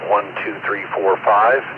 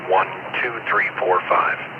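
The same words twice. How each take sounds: First: The voice sounds full and not tinny. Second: The voice sounds thin and tinny. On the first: The speaker calls it right. "with the uh, de-emphasis enabled" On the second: The speaker calls it wrong.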